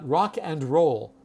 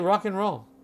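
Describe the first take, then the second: First: The word 'and' is pronounced in full. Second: The word 'and' is reduced to an 'n' sound. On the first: The speaker calls it wrong. "we do not call it rock and roll. I'm going to say never" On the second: The speaker calls it right. "We say rock and roll"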